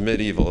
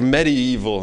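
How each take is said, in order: First: The word is said in its usual reduced way. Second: Every syllable is spelled out carefully. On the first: "instead of medieval" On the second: "It's interesting when people say like medieval"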